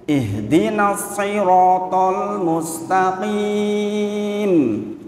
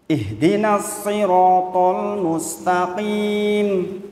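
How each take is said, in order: The two takes are said the same way.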